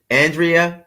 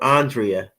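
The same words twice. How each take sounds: First: "Andrea" with a flat-A first syllable, as in "and"; AN-dree-uh pronunciation. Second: "Andrea" opening on a broad "ahn"; AHN-dree-uh pronunciation. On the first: Host checking a viewer's name, "Andrea" said AN-dree-uh. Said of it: "I hope I'm saying it right". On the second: Host offering another version of viewer's name, "Andrea" said AHN-dree-uh. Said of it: "so many different ways of saying it". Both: Shown as a demonstration.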